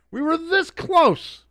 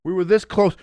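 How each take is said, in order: First: Slow, high, dramatic meme line; meme quote. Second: Said in the usual way. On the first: Retold or imitated. Quoting the Rogue One meme, high dramatic delivery. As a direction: ham up the movie line. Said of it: "having the Rogue One meme". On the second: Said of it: "Rogue One meme".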